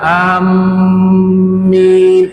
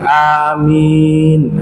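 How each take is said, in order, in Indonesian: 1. Bunyi m ditahan panjang di bagian akhir. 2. Kedua vokal panjang dan m pendek. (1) "mimnya ditahan" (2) "Awalnya panjang, bagian akhirnya juga panjang"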